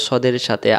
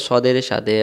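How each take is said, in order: Both takes have the same delivery.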